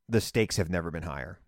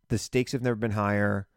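First: Said in the usual way. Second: "never" given the main weight, level tune; stress on never. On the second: Real, not acted. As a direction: lean on "never". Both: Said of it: "repeats line for emphasis".

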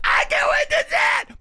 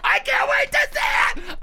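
First: Even higher shrieking fan excitement; mock fangirl squeal. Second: High shrieking fan excitement; mock fangirl squeal. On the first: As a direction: squeal it again, bigger.

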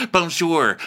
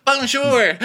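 First: Moderately raised put-on "Bonjour"; mock French greeting. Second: Very high, loud "Bonjour"; mock French squeal. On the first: [name] greeting the guys, moderately raised mock voice. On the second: Guys answering [name], high loud mock greeting. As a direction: squawk "Bonjour" back, pitched way up.

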